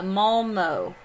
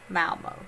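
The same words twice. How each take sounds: First: "Malmo" said MAHL-moh with a broad ah; Malmo with an open Swedish a. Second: "Malmo" said MAL-moh with a flat English a. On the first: Streamer tries the town name for chat, Swedish style. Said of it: "In English, the town is called". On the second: Streamer gives chat the English pronunciation of the town. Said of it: "In English". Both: Shown as a demonstration.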